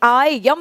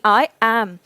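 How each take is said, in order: First: 'Am' begins with a y sound. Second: 'Am' begins with a plain vowel. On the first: The speaker calls it wrong. "आई यम नहीं" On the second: The speaker calls it right. "ए से start करना है"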